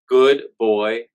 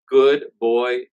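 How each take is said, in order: No difference in how they are said.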